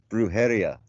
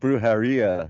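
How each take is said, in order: First: The ending is said with Spanish vowels. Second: The ending sounds like the English word 'diarrhea'. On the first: The speaker calls it right. "It's brujeria" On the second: The speaker calls it wrong. "You're like saying it like diarrhea"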